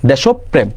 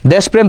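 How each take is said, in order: First: দেশপ্রেম as desho-prem, o after sh; correct pronunciation. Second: দেশপ্রেম as desh-prem; no vowel after sh in দেশপ্রেম, straight into prem; wrong pronunciation. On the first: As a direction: voice the middle o in দেশপ্রেম, prem kept whole. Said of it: "চার নাম্বারটা". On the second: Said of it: "সঠিক উচ্চারণ তো এটা না". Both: Shown as a demonstration.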